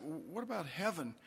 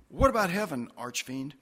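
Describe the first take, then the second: First: Said in the usual way. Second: Louder, higher start dropping onto the nickname; cheekily personal question with falling finish; familiar, teasing address. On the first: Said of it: "maybe it's okay to get a little personal". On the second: Acted. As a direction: ask boldly, then tack on the nickname. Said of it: "okay to get a little personal".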